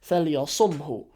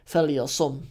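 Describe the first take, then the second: First: The word ends with an audible 'hu' sound. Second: The word ends without any 'hu' sound. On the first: "There's actually a little hu on the end" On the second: "you don't need to pronounce the hu on the end"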